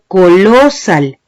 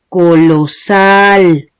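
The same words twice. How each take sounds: First: The stress is on the second syllable. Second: The stress is on the last syllable. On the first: The speaker calls it wrong. "ni digo colosal" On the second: The speaker calls it right. "la vocal que estoy alargando es la A"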